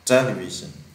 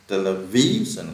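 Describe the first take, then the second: First: The stress is on the first syllable. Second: The stress is on the third syllable. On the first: The speaker calls it right. "nó nhấn âm đầu television" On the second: The speaker calls it wrong. "hay nhấn âm ví là không đúng"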